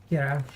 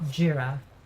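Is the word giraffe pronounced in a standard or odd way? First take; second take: odd; standard. First: The word is pronounced in an odd way. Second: The word is pronounced in the standard way. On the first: The speaker calls it wrong. "not giraffe" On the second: The speaker calls it right. "It's a giraffe"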